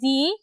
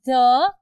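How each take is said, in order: First: The word ends in a long 'ee' vowel. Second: The word ends in a short 'uh' vowel. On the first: This form is used before vowels. "It's pronounced as दी with द vowels" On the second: This is the usual form. "Usually it's pronounced as द"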